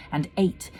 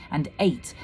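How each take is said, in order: Both takes have the same delivery.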